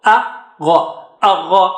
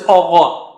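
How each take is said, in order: First: Agha with an open a and a clear gh; teacher modelling the correct agha. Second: Agha with the a rounded to o; teacher showing the mistake in agha; wrong vowel. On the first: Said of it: "Don't say agha". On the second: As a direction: show the rounded agha as the error. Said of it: "Don't say". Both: Shown as a demonstration.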